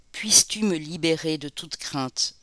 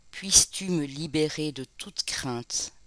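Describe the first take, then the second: The two takes are said the same way.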